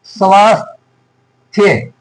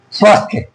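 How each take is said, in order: First: स्वास्थ्य slowly split as "svaas... thya"; slow correct form. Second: Said in the usual way. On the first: Shown as a demonstration. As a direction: draw out the long aa in स्वास्थ्य, pause before "thya". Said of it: "ये होता है".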